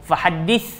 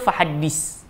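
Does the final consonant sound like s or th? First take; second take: th; s. First: The final consonant is a soft th sound. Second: The final consonant is a hissing s sound. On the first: The speaker calls it right. "dengan sa" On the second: The speaker calls it wrong. "dengan sin"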